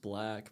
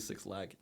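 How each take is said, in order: First: The name is said as one word starting with B. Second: The name is said as two words starting with six. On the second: "I say Six Lag"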